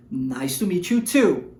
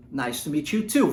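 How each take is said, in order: First: "Nice to meet you too." said slowly, leaning on "too"; slow down and land on "too"; slow reply with stress on too. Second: Said in the usual way. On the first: Shown as a demonstration. (resposta lenta com ênfase em "too") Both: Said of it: "repete a mesma frase".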